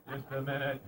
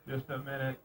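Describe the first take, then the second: No difference in how they are said.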